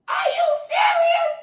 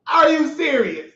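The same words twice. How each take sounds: First: Much higher shouted question; high disbelieving yell; outraged shout. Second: Said in the usual way. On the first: Retold or imitated. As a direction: cry it out in disbelief.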